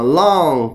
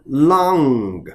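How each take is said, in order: First: The word ends without a faint final sound. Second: The word ends with a faint final sound. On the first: The speaker calls it wrong. "很多就这样了long 不对" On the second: The speaker calls it right. "因为这个歌它会有一点点音啊"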